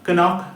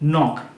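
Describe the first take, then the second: First: A k sound is pronounced at the start. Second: The word begins directly with an n sound. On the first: The speaker calls it wrong. "কনক না" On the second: The speaker calls it right. "কেটা থাকবে প্রথমে as a silent letter"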